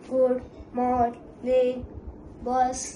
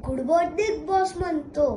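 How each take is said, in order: First: Slow, even machine greeting; robot voice. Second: Said in the usual way. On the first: Acted. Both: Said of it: "हा मला good morning boss म्हणतो".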